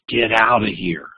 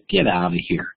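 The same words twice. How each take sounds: First: It is said loudly in an angry tone. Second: It is said playfully with a little giggle. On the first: "a louder voice volume and an angry voice tone" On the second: "you hear me giggle a little bit, and I'm smiling"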